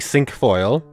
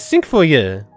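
First: The name is pronounced with an English accent. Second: The name is pronounced with a French accent. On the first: "the English pronunciation for it is literally sunk foil" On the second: "the French pronunciation is sunk foyer"

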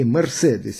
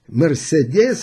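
First: The stress is placed the German way. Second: The stress is not placed the German way. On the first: The speaker calls it right. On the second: The speaker calls it wrong.

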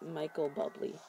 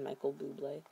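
First: The surname sounds like the word bubbly. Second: The surname ends with a blay sound. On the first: The speaker calls it wrong. "It's like bubbly" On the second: The speaker calls it right. "I mean"

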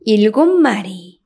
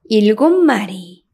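First: The consonant before 마리 is a nasal m. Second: The consonant before 마리 is a nasal m.

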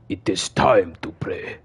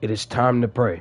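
First: It is read in a put-on character voice. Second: It is read in the speaker's natural voice.

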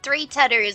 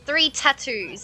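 First: The words are said loosely, not carefully articulated. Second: The words are said with careful, crisp articulation. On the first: The speaker calls it wrong. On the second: The speaker calls it right.

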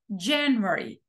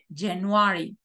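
First: It is stressed the way English stresses words. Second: It is stressed the way Spanish stresses words. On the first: The speaker calls it right. "tengo que decir January" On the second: The speaker calls it wrong. "en inglés no puedo decir January, como en español"

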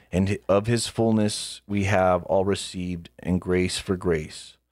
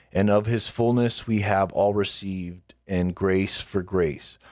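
The two takes are said the same way.

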